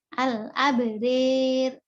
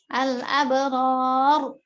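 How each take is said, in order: First: The r is thin, with the vowel leaning forward. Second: The r is heavy, with an open a vowel. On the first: "ketika dibaca imalah, maka Abu Amr dan Al-Kisai membacanya tipis" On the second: "Itu harus tafhim"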